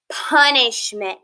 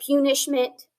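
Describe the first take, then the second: First: "punishment" slowly as PUN-ish-ment; short U in "punishment", drawn out slowly; correct pronunciation. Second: "punishment" said as PEW-nish-ment; long U, like "pew", opening "punishment"; wrong pronunciation. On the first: Teacher correcting by context for pupils, slow short-U "punishment". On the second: Teacher asking pupils if they ever had one, mispronounced "punishment". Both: Shown as a demonstration. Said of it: "No, but you have had a".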